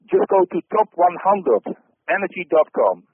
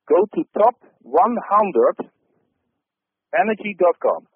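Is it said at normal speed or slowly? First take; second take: normal speed; slowly. First: It is said at normal speed. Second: It is said slowly and deliberately.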